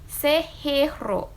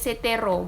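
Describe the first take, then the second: First: No t sound links into the noun. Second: A t sound links into the noun. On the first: The speaker calls it right. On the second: The speaker calls it wrong. "Jadi bukan se se setero gitu, bukan"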